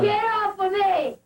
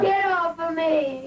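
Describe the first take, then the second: First: It is screamed. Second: It is said louder.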